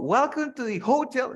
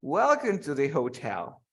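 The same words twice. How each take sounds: First: "hotel" stressed on HO, pitched high; mock-wrong "hotel", punching the first syllable in a raised pitch. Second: "hotel" stressed on TEL, at usual pitch; light HO, firm falling TEL in "hotel"; correct syllable stress. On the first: Teacher showing what we never say, high HO in "hotel". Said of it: "We never say". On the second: Teacher correcting the welcome, "hotel" stressed on TEL. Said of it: "This is syllable stress". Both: Shown as a demonstration.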